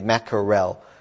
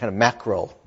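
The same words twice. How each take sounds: First: Every syllable of the word is pronounced fully. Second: The middle syllable is reduced or dropped. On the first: "We don't say mackerel" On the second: "we English is, when we speak, are lazy"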